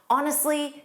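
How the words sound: It is said in a mildly frustrated tone. The speaker is slightly annoyed. "maybe you say it with some frustration"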